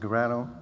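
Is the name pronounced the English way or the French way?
English. The name is pronounced with English sounds. "That's the English way"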